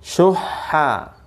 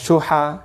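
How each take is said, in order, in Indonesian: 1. Bunyi h di tengah ditahan panjang, dobel. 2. Bunyi h di tengah pendek, tunggal. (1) "Lihat suaranya" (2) "Bukan syuha"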